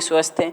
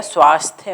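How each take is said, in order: First: स्वस्थ said short as swasth, no long a; teacher says स्वस्थ as swasth to show the mistake; wrong form. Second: स्वास्थ्य said with long a as swaasthya; teacher says स्वास्थ्य clearly with the long aa; correct form. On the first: Teacher to students, showing the wrong word: swasth. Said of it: "स्वस्थ कुछ नहीं होता है". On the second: Teacher to students, giving the right word: swaasthya. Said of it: "स्वास्थ्य होता है". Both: Shown as a demonstration.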